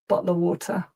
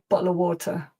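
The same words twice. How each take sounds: First: The t in water is fully pronounced. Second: The same.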